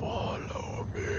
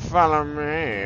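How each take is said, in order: First: It is said while breathily inhaling. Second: It is said in a normal voice.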